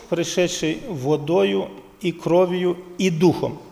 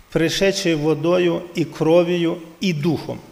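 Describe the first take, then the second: No difference in how they are said.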